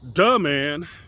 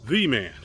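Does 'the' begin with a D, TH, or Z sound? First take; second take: D; TH. First: The word 'the' begins with a D sound. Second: The word 'the' begins with a TH sound. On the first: "they will say duh man" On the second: "instead of the man"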